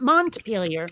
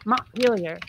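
First: The T sound is clearly pronounced. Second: The T sound is dropped or swallowed. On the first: "not Montpelier" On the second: "nobody pronounces the letter T if they can help it"

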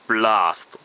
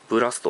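First: The vowel after the first consonants is long. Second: The vowel after the first consonants is short. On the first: The speaker calls it right. "ブラーストだったはずなんだよな" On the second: The speaker calls it wrong. "これも言い方違うはずなんだよな"

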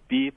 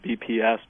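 First: It is said as one word rhyming with sleeps. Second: It is spelled out as three separate letters. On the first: "Some people, I guess, go beeps" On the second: "Some others might spell out the BPS"

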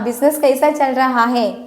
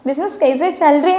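First: The verb phrase is said in full. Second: The verb phrase is contracted into one word. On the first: "ഫുള്ളായിട്ടൊന്നും പറയേണ്ട കാര്യമൊന്നുമില്ല" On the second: "business കൈസ ചൽറേ എന്ന് മാത്രം ചോദിച്ചാൽ മതി"

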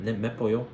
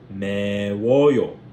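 First: A 'p' sound links into the ending. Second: A 'w' sound links into the ending. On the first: The speaker calls it wrong. "Doesn't sound right" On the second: The speaker calls it right. "If you guess that, then congratulations to you"

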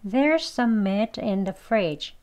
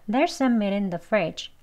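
First: The sentence is spoken at a moderate pace. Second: The sentence is spoken fast. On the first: "한번 더요" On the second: "다음 빨리 발음해서요"

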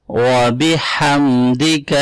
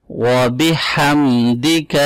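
No difference in how they are said.

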